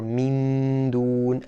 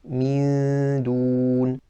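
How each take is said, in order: First: The n is clearly pronounced with the tongue. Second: The n is hidden, with a nasal hum. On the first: The speaker calls it wrong. "touch the makhraj of noon ... that's incorrect" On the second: The speaker calls it right. "we should be saying mindun"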